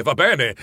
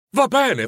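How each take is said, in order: First: Resigned. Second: A high, bright "Va bene" of surrender; giving in. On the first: Nephew giving up the argument with his uncle, resigned. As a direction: let it drop with a sigh of acceptance. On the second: Nephew giving up the argument with his uncle, giving in. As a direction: throw up your hands cheerfully. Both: Acted. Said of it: "si arrese il nipote".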